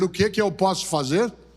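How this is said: It sounds willing and ready, a real question.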